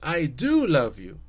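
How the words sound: The word do is stressed.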